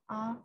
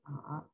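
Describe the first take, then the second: First: The syllable is said in the first tone. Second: The syllable is said in the third tone. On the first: "first tone" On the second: "third tone"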